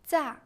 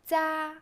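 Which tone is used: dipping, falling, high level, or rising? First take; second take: falling; high level. First: The pitch falls sharply from high. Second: The pitch stays high and level.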